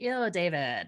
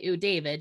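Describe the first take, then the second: First: It is said with exaggerated, disgusted intonation. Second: It is said plainly, without dramatic intonation. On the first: The speaker calls it right. "you say, ... with that special juice to it" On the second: The speaker calls it wrong. "you don't just say"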